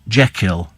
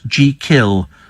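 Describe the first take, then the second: First: The first syllable sounds like 'jeck'. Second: The first syllable sounds like 'jee'. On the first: The speaker calls it wrong. "not Jekyll" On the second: The speaker calls it right. "let the name be pronounced as thought it's spelt"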